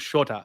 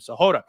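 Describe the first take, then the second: First: The name is said like Shota. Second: The name is said like Sahota. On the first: The speaker calls it wrong. "I pronounced that wrong" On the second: The speaker calls it right. "That's how you pronounce this guy's name"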